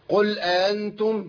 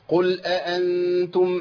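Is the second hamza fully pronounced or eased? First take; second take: eased; fully pronounced. First: The second glottal stop is softened and eased. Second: Both glottal stops are pronounced separately and clearly. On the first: The speaker calls it wrong. "سهلت الهمزة الثانية ليه يا شيخ؟" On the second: The speaker calls it right. "لابد من نطق الهمزتين"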